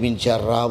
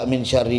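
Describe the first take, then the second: First: The second word ends with an 'a' vowel. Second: The second word ends with an 'ee' vowel. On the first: The speaker calls it wrong. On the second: The speaker calls it right.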